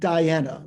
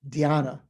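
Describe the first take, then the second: First: It sounds like the name Diana. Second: It starts with a 'dhy' sound. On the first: The speaker calls it wrong. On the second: The speaker calls it right.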